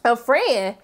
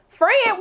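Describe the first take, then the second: First: Said in the usual way. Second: FRIEND thrown back high, as a question; incredulous. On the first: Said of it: "she was like". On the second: Acted. Throwing Serena's word back at her, incredulous. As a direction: echo "Friend" in offended disbelief.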